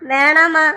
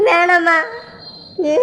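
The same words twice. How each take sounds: First: Said in the usual way. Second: Crying plea. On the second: Acted. Father begs his daughter to give up Muthu, crying. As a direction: voice breaking into a sob on வேணாமா.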